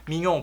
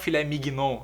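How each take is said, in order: First: The gn is one nh sound. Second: The g and n are sounded separately. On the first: The speaker calls it right. "G N tem o som de N H no francês" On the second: The speaker calls it wrong. "A gente não fala filé mignon"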